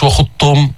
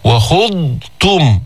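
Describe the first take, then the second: First: وخضتم said fast, the ض blurred into the ت; wrong reading. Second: وخضتم very slowly, with the ض distinct before the ت; careful tajweed; correct reading. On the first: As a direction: rush وخضتم. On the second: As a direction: stretch out وخضتم. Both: Shown as a demonstration. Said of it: "مش".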